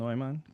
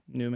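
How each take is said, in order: First: The first syllable sounds like German 'noy'. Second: The first syllable sounds like English 'new'. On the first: Listeners slow down and ask how to spell it. "When I want people to slow down and spell it, I say Neumann" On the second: Listeners confidently assume a familiar spelling. "Newman's easier in English"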